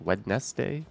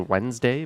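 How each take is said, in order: First: The word is said with every syllable sounded. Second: The word is said quickly with sounds dropped. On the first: This is how the word really is. "it's really" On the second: This is how most people say it. "most people just say"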